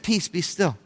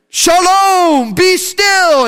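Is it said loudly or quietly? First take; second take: quietly; loudly. First: It is said quietly and calmly. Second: It is yelled loudly.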